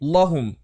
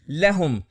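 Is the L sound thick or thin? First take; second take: thick; thin. First: The L is pronounced thick and heavy. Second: The L is pronounced thin and light. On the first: The speaker calls it wrong. "ना कि लहुम" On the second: The speaker calls it right. "और इसी तरह लहुम"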